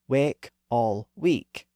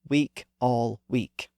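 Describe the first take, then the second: First: The first vowel is mid and the second is high. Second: Both key vowels are the same high vowel. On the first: This is how it was said around 1600. "William Shakespeare would have used those newer pronunciations" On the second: This is how it is said today. "the sounds have merged"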